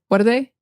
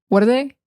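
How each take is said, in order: The two takes are said the same way.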